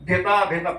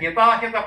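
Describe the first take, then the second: First: The word begins with a 'bh' sound. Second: The word begins with an 'h' sound. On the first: The speaker calls it wrong. "భితా భిత అని రాసుకున్నాను" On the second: The speaker calls it right. "హితాహిత అనే ఉచ్చారణ"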